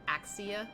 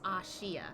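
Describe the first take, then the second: First: The middle consonant is a 'ks' sound. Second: The middle consonant is a 'sh' sound. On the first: This is how some people read the name from its spelling. The speaker calls it wrong. "they mispronounce it" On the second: This is the intended pronunciation of the name. The speaker calls it right. "the saying is Ashia"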